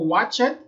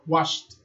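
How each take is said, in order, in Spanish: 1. La terminación es una sílaba extra. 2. La terminación es un sonido t corto. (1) "No digo" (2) "sino que digo"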